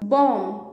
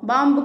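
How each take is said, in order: First: The word ends on m, b silent. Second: The word ends with an audible b sound. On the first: The speaker calls it right. "బ sound అసలు రాదు" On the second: The speaker calls it wrong. "బాంబు కాదు"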